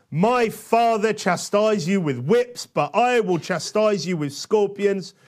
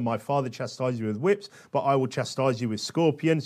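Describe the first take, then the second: First: Slow, raised, forceful declamation; ringing threat read out boldly; emphatic scripture reading. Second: Said in the usual way. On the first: Acted. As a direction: proclaim it, stretching the key words. Reading the king's verbatim answer aloud.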